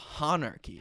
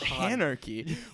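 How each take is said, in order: First: The first syllable rhymes with the name Hahn. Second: The first syllable sounds like the start of anarchy. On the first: The speaker calls it right. "our GM is Rick Hahn" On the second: The speaker calls it wrong. "It's not Hanarchy"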